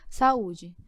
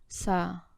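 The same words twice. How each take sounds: First: Said in the usual way. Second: "Sa-u-de" said slowly, syllable by syllable, softer; split into syllables. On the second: Shown as a demonstration. Teacher separating the syllables of "Sa-u-de" for students. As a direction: pull "Sa-u-de" apart into its three syllables.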